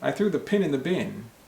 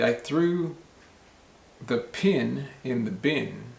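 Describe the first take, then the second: First: It is said quickly with words run together. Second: It is said slowly with separate words. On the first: "a lot of times people will say" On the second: "I can say it slowly"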